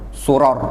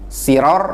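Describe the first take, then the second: First: The first vowel is a u sound. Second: The first vowel is an i sound. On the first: "atau mendhammah sinnya tadi" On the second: "mengkasroh sin"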